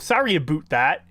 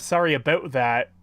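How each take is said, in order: First: The word about sounds like a boot. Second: The word about has its usual vowel. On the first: "the example of a boot" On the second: "instead of"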